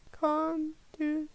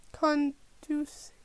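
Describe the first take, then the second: No difference in how they are said.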